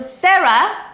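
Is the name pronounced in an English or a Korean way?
English. The name is said with English sounds. "Sarah with S"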